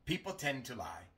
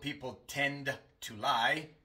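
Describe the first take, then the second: First: The D at the end of tend is dropped. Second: The D at the end of tend is pronounced. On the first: The speaker calls it right. "sino ... La D se omite" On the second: The speaker calls it wrong. "No digo"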